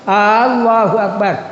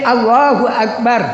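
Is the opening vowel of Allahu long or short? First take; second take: long; short. First: The opening vowel of Allahu is drawn out long. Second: The opening vowel of Allahu is kept short. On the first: It asks whether God is the greatest. The speaker calls it wrong. "apakah Allah Maha Besar?" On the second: It states that God is the greatest. The speaker calls it right. "Allah Maha Besar"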